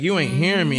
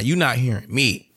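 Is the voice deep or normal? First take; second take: normal; deep. First: It is said in his normal voice. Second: It is said in a deep God voice.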